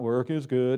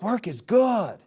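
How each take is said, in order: First: It is said flatly, without energy. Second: It is said with energy and excitement.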